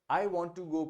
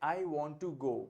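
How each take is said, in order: Both takes have the same delivery.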